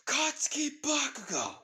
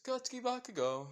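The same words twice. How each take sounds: First: High, loud screamed full name; mother screaming down the phone; furious yell. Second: High sing-song name call; devilish grin. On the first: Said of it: "With then instantly yelling". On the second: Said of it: "with a devilish grin". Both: Acted.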